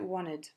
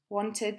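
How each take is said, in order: First: The t sound after n is left out. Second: The t sound after n is clearly pronounced.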